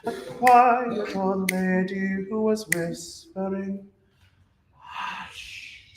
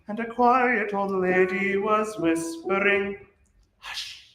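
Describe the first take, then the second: First: The final hush is soft and fills the beat. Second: The final hush is short and percussive.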